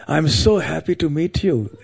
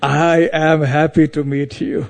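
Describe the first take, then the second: First: "so" pushed higher in a retold happy greeting; stress on SO. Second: "I" drawn out, higher and emphatic, with a laugh; slow punchline leaning hard on "I"; stress on I. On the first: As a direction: lean on "so" as the delighted guest. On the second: Retold or imitated. Punchline turning the greeting round.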